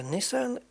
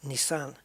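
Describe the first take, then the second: First: Nissan stressed on NISS; usual emphasis. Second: Nissan as nee-SAN, weight on the end; shifted emphasis. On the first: Gamer naming the car the usual way, Nissan as NISS-un. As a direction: say Nissan with a short, weak second syllable. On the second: Gamer showing how they pronounce it, Nissan as nee-SAN. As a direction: say Nissan leaning on the second syllable. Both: Shown as a demonstration. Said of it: "where you put the emphasis".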